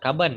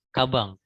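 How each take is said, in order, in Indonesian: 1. Kata ini diakhiri dengan bunyi n biasa. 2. Kata ini diakhiri dengan bunyi ng. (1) "Bukan kaban ya" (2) "Tapi N ini dibaca eng"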